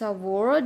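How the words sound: It is said with an American accent. "award in American"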